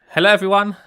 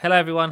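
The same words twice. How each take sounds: First: It is said in an exaggerated, loud way. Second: It is said in a calm, toned-down way.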